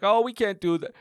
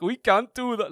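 First: Lightly voiced man from the crowd; crowd guy's line. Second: Crowd guy's mouth-pulled-back voice, a bit higher; mouth held back. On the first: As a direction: quote the heckler with only a hint of imitation. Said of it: "that one guy's like". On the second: Retold or imitated. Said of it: "holding his mouth back and doing the whole thing".

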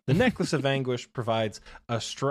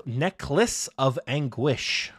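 First: Said in the usual way. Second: Necklace of Anguish drawn out slowly; strange slow pronunciation. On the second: Shown as a demonstration. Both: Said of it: "I said that so strangely".

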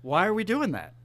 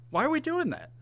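First: Said in the usual way. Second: "Why are we doing that?" asked much higher, in disbelief; exasperated repeat. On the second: Real, not acted. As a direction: throw the question up high in exasperation.

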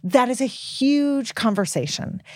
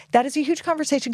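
First: Slow, weighty emphasis on huge; drawn out. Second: Fast, higher throwaway repeat; quick repeat. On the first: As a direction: lean on the word huge, taking your time. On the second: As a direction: rattle it off again, brighter. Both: Real, not acted.

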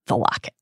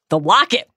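First: Understated, low-key reveal; restrained storyteller's discovery; hushed reveal. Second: Higher, rising exclamation; dramatic storyteller's outcry; exclaimed reveal. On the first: Dramatic reveal, first take. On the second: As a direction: burst out with astonishment at the find. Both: A narrator's reading.

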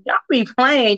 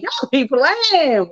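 First: Said in the usual way. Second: Slow teasing drawl. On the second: Real, not acted. Host teasing listeners who don't support, slow drawn-out tease. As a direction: stretch it out slowly, playfully.

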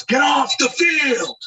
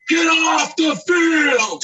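First: High, slow shouted order off the field; angry groundskeeper. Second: Very high, loud, slow shouted order; furious yell. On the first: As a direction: bark it like a furious groundskeeper. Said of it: "he goes". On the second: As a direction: yell it like he's lost his temper. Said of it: "He's yelling". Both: Retold or imitated.

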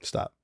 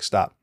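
First: Second stop, much softer and settled; softer repeat. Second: Said in the usual way. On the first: Retold or imitated. David repeating stop to his soldier, much softer. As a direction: let the repeat fall away quietly.

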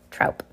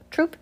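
First: Troupe said to rhyme with out, wrongly; mispronounced troupe. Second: Troupe said like troop, with an oo vowel; Troupe, long oo, testing the word. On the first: Reader unsure how to say Troupe, tries ow vowel. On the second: Reader tries again, Troupe said like troop. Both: Shown as a demonstration. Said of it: "Why can't I ever get that right?".

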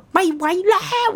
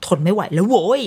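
First: High, drawn-out wail; long high whiny cry; wailing can't take it. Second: Fed up. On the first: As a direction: stretch it out like a wailing toddler. Child crying nonstop in car. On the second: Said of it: "มันจะมีจุดที่แบบ". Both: Retold or imitated.

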